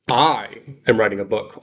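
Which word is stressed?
I. The word "I" is stressed for emphasis.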